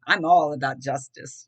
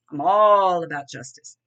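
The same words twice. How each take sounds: First: Said in the usual way. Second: Punched out, much louder; louder insistent restatement; louder emphatic repeat. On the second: Shown as a demonstration. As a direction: hammer it home with force.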